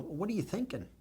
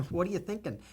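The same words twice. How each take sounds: First: High and soft, voice catching; moved, almost breaking; getting emotional. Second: High, choked repeat of the question; getting emotional. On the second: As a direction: still moved, pushing the words out. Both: Real, not acted. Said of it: "I'm sorry to get emotional".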